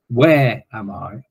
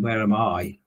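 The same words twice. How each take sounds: First: The stress is on "where". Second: The stress is on "I".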